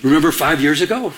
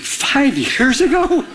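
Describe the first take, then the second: First: Said in the usual way. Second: High, drawn-out disbelieving echo; retold astonishment, slow and high-pitched; incredulous. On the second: Incredulous reaction to an old grudge.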